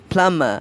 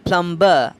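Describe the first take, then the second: First: The B sound is silent. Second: The B sound is pronounced. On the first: The speaker calls it right. "the correct pronunciation" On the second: The speaker calls it wrong. "don't end up pronouncing that plumber"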